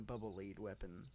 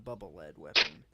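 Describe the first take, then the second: First: The vowel in lead is long, as in bead. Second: The vowel in lead is short, as in bed. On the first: The bubble guides. The speaker calls it right. "It's the" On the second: The bubble is made of metal. The speaker calls it wrong. "It's not the"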